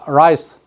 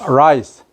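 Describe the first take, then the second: Both takes have the same delivery.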